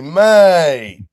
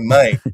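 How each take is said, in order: First: It is said in a warm, friendly tone. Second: It is said in a confrontational, aggressive tone. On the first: The speaker is being affectionate. "how would you say it positively?" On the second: The speaker is picking a fight. "You want to fight me or you want to test? Like, that is calling out"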